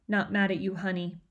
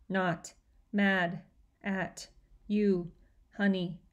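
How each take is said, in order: First: Said in the usual way. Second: "Not mad" then a pause, "at you" then a pause, "honey"; extra pauses between words. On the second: A narrator's reading. Natalie repeats her father's words to him, with pauses between them. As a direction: break the phrase into slow separate pieces. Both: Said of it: "adding extra pauses between the words".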